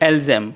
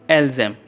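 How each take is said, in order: No difference in how they are said.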